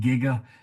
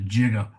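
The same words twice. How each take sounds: First: The word starts with a hard G sound. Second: The word starts with a J sound. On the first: "I pronounce it with a hard G" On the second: "like it was a J as opposed to a G"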